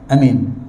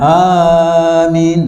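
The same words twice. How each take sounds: First: The first vowel is held for one count. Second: The first vowel is held longer than two counts. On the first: "terus satu harakat je" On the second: "bukan amin lebih daripada dua harakat"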